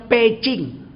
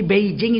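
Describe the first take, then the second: First: "Peking" said as "pei-ching"; Chinese reading. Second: "Beijing" with voiced b and j; as spelt. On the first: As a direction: say "Peking" with p and ch sounds. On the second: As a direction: say "Beijing" as written, bei-jing. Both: Shown as a demonstration. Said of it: "Beijing itu bacanya Peking".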